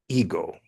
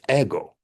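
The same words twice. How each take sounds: First: The word is pronounced with an English vowel sound. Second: The word is pronounced with a Greek vowel sound.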